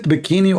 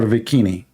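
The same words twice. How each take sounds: First: Said in the usual way. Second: "bikini" said with a V in place of the B; B swapped for V. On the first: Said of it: "is it bikini or". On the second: Shown as a demonstration. Joking about renaming the swimsuit after Vicky, "bikini" begun with V. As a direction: start "bikini" with a V sound. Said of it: "we should change the name".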